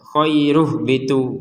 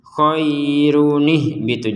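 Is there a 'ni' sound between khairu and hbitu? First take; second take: no; yes. First: Khairu joins the next word with no 'ni' syllable. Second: A 'ni' syllable links khairun to the next word. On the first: The speaker calls it wrong. "Ini enggak bisa" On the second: The speaker calls it right. "Harus dibaca khairunih bitu"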